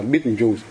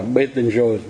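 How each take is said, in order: First: Betelgeuse as "beetle-juice"; American misreading. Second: Betelgeuse slowly as "be-ten-zhơ"; correct French pronunciation. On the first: Retold or imitated. Teacher showing how the Americans read it, "beetle-juice". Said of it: "mà mấy ông đọc là Betelgeuse". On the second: Shown as a demonstration. Teacher revealing what the name really is, French "be-ten-zhơ". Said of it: "Nó té ra là Betelgeuse".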